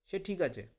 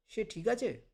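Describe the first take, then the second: First: Said in the usual way. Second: সে ঠিক আছে asked as a question, pitched up on আছে; question intonation. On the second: Shown as a demonstration. Teacher showing how tune makes a question, সে ঠিক আছে pitched high. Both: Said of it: "intonation দিয়ে করতাম, তাহলে প্রশ্ন হবে".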